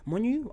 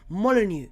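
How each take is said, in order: First: The name is said hesitantly, like a guess. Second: The name is said firmly and confidently. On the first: The speaker calls it wrong. "I can't pronounce it" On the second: The speaker calls it right. "There you go. Perfect"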